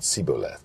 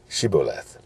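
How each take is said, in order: First: The word begins with an 's' sound. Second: The word begins with an 'sh' sound. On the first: The speaker calls it wrong. "they couldn't say it right, but said Siboleth" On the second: The speaker calls it right. "frame the word shibboleth"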